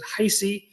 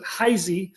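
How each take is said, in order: First: The middle consonant is a hissing s sound. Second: The middle consonant is a buzzing z sound. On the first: "I found one person that pronounces it Heisey" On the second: "pronounces the S like a Z"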